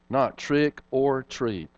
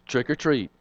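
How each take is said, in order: First: The words are said as three separate words. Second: The words run together as one word. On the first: It is a phrase of three words. The speaker calls it right. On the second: A child thinks it is a single word. The speaker calls it wrong.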